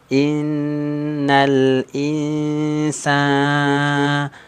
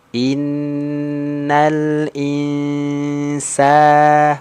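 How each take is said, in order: First: The long vowel sounds nasal, through the nose. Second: The long vowel sounds clear, not through the nose. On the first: The speaker calls it wrong. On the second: The speaker calls it right.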